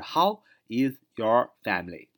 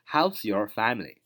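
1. 'How is' 要完整说成两个词。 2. 'How is' 连成一个音节 'how's'。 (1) "就是How is your family" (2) "连读就是"

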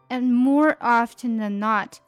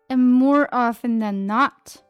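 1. 'often' 里的 t 发音。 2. 'often' 里的 t 不发音。

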